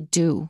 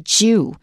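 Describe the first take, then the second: First: It begins with a plain d sound. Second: It begins with a j sound. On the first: "in American English, we just say dew"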